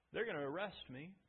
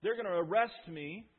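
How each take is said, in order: First: Softer, letting it sink; quiet foretelling. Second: Pressed harder, stronger; building emphasis. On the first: Jesus quietly telling disciples of his arrest. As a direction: say it low and heavy. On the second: Jesus insisting to disciples, building in force. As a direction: lean into it now. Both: Acted.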